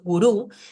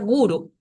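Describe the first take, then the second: First: The stress is on the last syllable. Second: The stress is on the first syllable. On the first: The speaker calls it wrong. "no hay palabras en sánscrito que estén acentuadas en la última sílaba" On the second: The speaker calls it right. "el acento siempre va a caer en la primera sílaba"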